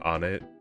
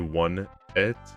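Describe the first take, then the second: First: The first syllable sounds like 'on'. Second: The first syllable sounds like 'one'. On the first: "even though it's probably incorrect" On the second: "People who say one et are psychopaths"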